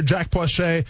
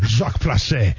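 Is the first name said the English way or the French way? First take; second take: English; French. First: The first name is said the plain English way. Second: The first name is said the French way. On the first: "It's just spelled. It's just yells Jack" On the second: "Maybe I should do this in a French accent the whole time"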